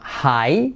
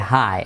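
First: The vowel is a full 'ai' glide. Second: The vowel sounds closer to an 'e'. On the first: "en lugar de decir high" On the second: "dice high. Es como una E"

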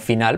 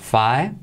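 First: It is pronounced like the Spanish word final. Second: It is pronounced the English way, 'fai-nal'. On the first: The speaker calls it wrong. "en lugar de pronunciarla como final" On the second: The speaker calls it right. "pues dirías final"

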